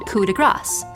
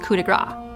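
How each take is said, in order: First: The phrase ends with an S sound. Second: The final S sound is left off. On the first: The phrase means stroke of grace. The speaker calls it right. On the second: The phrase means stroke of fat. The speaker calls it wrong.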